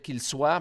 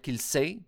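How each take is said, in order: First: The vowel is said like 'wa'. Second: The vowel is said like 'eh'. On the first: "Au lieu de dire qu'il soit" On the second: "on devrait dire qu'il sait"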